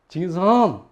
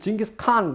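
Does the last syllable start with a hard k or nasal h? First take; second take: nasal h; hard k. First: The last syllable starts with a nasal h. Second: The last syllable starts with a hard k. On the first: The speaker calls it right. "이 콧소리를 내야 돼요" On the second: The speaker calls it wrong. "그 사람들이 싫어해요"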